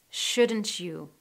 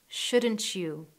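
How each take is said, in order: The two takes are said the same way.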